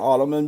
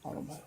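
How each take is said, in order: First: The name is said with three syllables. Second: The name is said with two syllables. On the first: The speaker calls it wrong. "maybe that's just people mispronouncing it" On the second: The speaker calls it right. "it is spelled Ottman"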